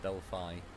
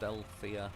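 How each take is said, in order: First: The word ends without any extra 'ah' sound. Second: The word ends with an extra 'ah' sound. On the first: The speaker calls it right. "A is silent" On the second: The speaker calls it wrong. "I always like pronounce it wrong"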